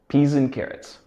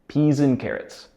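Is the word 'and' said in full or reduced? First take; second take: reduced; reduced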